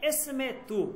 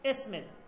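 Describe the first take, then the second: First: The word ends with a final vowel sound. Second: The final vowel is dropped from the word.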